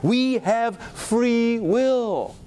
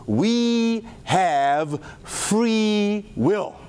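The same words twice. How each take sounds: First: We have free will, each word stretched and falling on will; very slow stress on free will. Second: Each word drawn out, We have free will; very slow stress on free will. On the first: Preacher repeating the quote to the congregation, slow and solemn. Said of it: "We are not prisoners". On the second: Preacher quoting the Harvard doctor, slow and weighty. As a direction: land We have free will slowly and firmly. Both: Acted.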